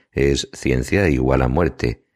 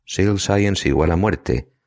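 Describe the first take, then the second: First: Slow, corrective "ciencia igual a muerte" with "ciencia" as Spanish thetha-thetha; correct reading. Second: Slow, deliberate "Seal Science igual a muerte" with "Seal" said like English seal; Evelyn's misreading. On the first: Patrick corrects Evelyn with a sigh, slow and clear. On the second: Evelyn asks about the T-shirts, slowly misreading the slogan. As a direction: spell out her mistaken "Seal Science" slowly. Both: A narrator's reading. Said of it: "estás completamente equivocada".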